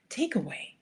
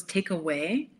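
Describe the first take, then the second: First: Said in the usual way. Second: Lightly mocked Italian accent. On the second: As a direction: mimic an Italian waiter's English, just a touch. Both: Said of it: "but with an Italian accent".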